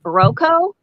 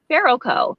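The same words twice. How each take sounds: First: "Barroco" rising at the end like a question; shifting syllable stress. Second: "Barroco" falling at the end; shifting syllable stress. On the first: Cohost testing which syllable of the name to stress, questioning rise. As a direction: ask "Barroco?" with a questioning upturn. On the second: Cohost testing which syllable of the name to stress, falling statement. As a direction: state "Barroco" as a settled answer, pitch dropping. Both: Shown as a demonstration. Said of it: "Which, which syllable do you put the emphasis on?".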